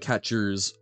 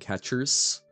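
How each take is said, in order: First: The final sound is a buzzing, voiced Z. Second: The final sound is a hissing, voiceless S. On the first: The speaker calls it right. "it's more of a Z sound, right? It, it's it's buzzed, it's it, it's voiced" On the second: The speaker calls it wrong. "rather than"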